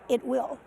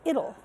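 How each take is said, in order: First: Both words are said fully and separately. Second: The words are joined into one contracted word. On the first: The speaker calls it wrong. "students will will read it out" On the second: The speaker calls it right. "but actually it's it'll"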